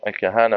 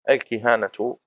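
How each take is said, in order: First: The first vowel is a, as in kahana. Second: The first vowel is i, as in kihana. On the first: "بالفتح" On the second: "بالكسر"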